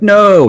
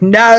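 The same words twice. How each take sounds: First: Said in the usual way. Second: Put-on "No" in Australian accent, loud, high and drawn out; exaggerated Australian "No" with extra vowels and an R. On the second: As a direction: mimic an over-complicated Aussie "No", stretched into "naur". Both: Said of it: "why did they make the word no so complicated".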